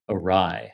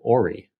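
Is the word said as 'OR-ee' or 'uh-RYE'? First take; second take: uh-RYE; OR-ee. First: It sounds like 'uh-rye', rhyming with 'try'. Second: It sounds like 'or-ee', stressed on the start. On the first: This is how the word is said aloud. "I would say awry verbally to people" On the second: This is a reading guess from the spelling. "whenever I read it in a book, I was like"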